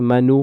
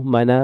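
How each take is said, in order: First: The word ends with an added u vowel. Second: The word ends with an added a vowel.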